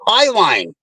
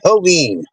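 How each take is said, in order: First: The first syllable sounds like 'high'. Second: The first syllable sounds like 'heh'. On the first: This is how locals say the name. The speaker calls it right. "It's Highline" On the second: This imitates how a navigation voice says it. The speaker calls it wrong. "every single fucking map pronounces it Helene"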